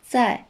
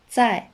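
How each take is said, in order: The two takes are said the same way.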